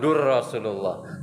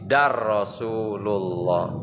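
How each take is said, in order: First: The syllable before Rasulullah has a 'u' vowel. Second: The syllable before Rasulullah has an 'a' vowel. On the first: The speaker calls it wrong. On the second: The speaker calls it right.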